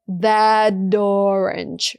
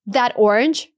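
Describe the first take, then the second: First: The linking consonant sounds like a D. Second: The linking consonant sounds like a T. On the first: "It's T versus D" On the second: "It's T versus D"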